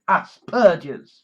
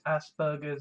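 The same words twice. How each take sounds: First: The middle sound is a breathy, aspirated 'p'. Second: The middle sound is a soft 'b', like 'burgers'. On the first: This is the proper way to say it. The speaker calls it right. "It's called Asperger's. You've got to aspirate" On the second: This is how Americans say it. The speaker calls it wrong. "in America they call it Asperger's"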